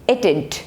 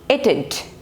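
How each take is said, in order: First: The words merge into one contracted form. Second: The same.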